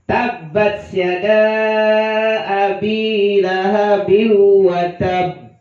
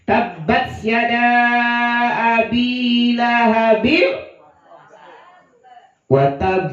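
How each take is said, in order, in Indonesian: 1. Frasa ini mengalir dan berakhir pada b ganda. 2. Frasa ini terputus dan berakhir pada b tunggal. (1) "yang benar. ... karena di akhirnya ada tasydid"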